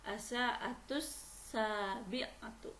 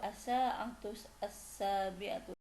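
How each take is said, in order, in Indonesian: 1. Kedua kata disambung, bunyi artikelnya dihilangkan. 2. Kedua kata diucapkan terpisah, artikelnya dibaca penuh.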